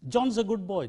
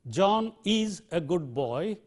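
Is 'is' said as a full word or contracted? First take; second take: contracted; full. First: The word is is reduced to a z sound. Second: The word is is pronounced as a full syllable.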